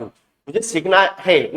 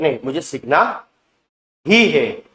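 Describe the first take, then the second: First: Said in the usual way. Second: "ही" hit firmly after a pause; stress on ही. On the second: Shown as a demonstration. Teacher showing students the urgent version, stressing ही. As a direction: lean on "ही है" to show urgency. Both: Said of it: "भाई एकदम urgency है".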